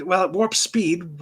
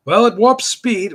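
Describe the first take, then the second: First: Said in the usual way. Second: Much louder, punchy "warp speed"; loud cartoon line.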